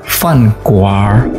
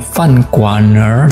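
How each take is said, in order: First: The r merges into the syllable, replacing n. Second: The r forms its own extra syllable after n. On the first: The speaker calls it right. "tapi fan kuar" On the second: The speaker calls it wrong. "bukan fan kuaner"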